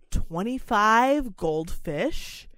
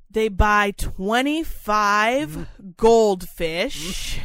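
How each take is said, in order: First: Said in the usual way. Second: "twenty-five" leaned on, louder and very slow; emphatic repeat. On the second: Shown as a demonstration. Stressing to the cohost how many fish were bought, louder and slow. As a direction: drag out "twenty-five goldfish" in disbelief.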